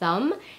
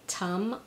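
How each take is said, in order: First: The word begins with a soft th sound. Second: The word begins with a t sound. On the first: "the sound, as in the word thumb" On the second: "or as a T"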